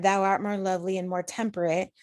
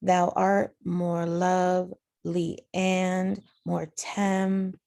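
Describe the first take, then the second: First: Said in the usual way. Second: Slow two-syllable feet, "lovely" and "temperate" split; divided into iambs. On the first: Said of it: "So if we look at". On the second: Shown as a demonstration. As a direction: measure out "Thou art more lovely" in slow pairs. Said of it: "do the same thing with the second line".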